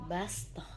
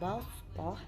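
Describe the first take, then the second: First: The s sound is plain, like sin. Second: The s sound is emphatic, like shad. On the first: "diubah menjadi bastoh" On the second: "Yang sebelumnya dibaca bastoh"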